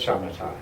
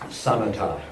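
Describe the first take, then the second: First: The word begins with an sh sound. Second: The word begins with a plain s sound. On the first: This is the Sanskrit form of the term. "which you would know as, as shamatha in Sanskrit" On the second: This is the Pali form of the term. "I prefer Pali pronunciation"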